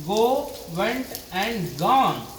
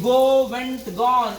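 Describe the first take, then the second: First: Go, went and gone said slowly, one word at a time; slow recitation. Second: Go, went, gone fired off fast and loud; quick loud listing. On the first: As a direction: spell out each verb form slowly for the class. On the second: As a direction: call out the three verb forms briskly to the class. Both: Shown as a demonstration.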